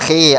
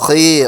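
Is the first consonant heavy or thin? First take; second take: thin; heavy. First: The consonant is thin, with the tongue low. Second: The consonant is heavy, filling the mouth. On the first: The speaker calls it wrong. "ആ രൂപത്തിലല്ല പറയേണ്ടത്" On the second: The speaker calls it right. "വായ നിറയെ ശബ്ദം ഉണ്ടാക്കുന്നത് അക്ഷരത്തെ തടിപ്പിച്ച്"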